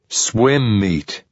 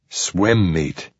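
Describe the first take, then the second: First: It is said more loudly. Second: It is said more softly.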